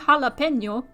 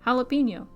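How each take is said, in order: First: The word is pronounced with Spanish sounds. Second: The word is pronounced with English sounds. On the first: "you don't really say jalapeno" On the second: "you say jalapeno"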